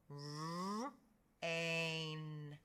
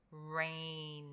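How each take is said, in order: First: "R, ain" in two held parts; sounded out. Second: Said in the usual way. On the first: Shown as a demonstration. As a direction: draw out "R", pause, then "ain". Teacher sounds out rain by parts.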